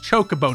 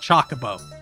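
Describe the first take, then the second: First: The first vowel is unlike the one in chocolate. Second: The first vowel sounds like the one in chocolate. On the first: The speaker calls it right. "no, it's chocobo" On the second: The speaker calls it wrong. "not chocobo"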